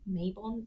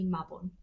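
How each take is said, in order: First: Mabon is said with a non-Welsh pronunciation. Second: Mabon is said with a Welsh pronunciation. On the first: "If you say Mabon, that's fine" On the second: "That's the Celtic pronunciation, the Welsh pronunciation"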